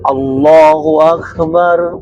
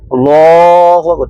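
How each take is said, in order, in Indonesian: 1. Vokal dalam Allah dibaca sebentar. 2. Vokal dalam Allah dibaca sangat panjang. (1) "cara baca takbir itu yang benar" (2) "Tapi kalau kepanjangan"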